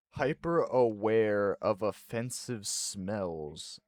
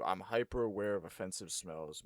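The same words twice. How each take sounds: First: Slow, deliberate reading from the screen; measured reading aloud of a result. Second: Said in the usual way. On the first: Real, not acted. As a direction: read each word out slowly and distinctly. Reads test result aloud.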